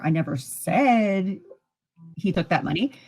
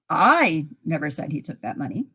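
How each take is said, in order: First: The stress falls on the word said. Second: The stress falls on the word I. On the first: It was thought or written, not said. "that could mean I thought it, I wrote it" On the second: Somebody else said it. "Somebody else said it"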